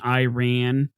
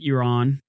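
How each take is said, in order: First: Iran is said with an old-fashioned American pronunciation. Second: Iran is said the way locals pronounce it. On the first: "I'm an American and I keep saying Iran like like I'm some like like general from the Civil War" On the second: "I know it's pronounced like Iran"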